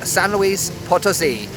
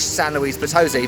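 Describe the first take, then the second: First: It is said with a Spanish accent. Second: It is said with an English accent. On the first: "I'm making an effort with Spanish pronunciation" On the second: "as I would say in English"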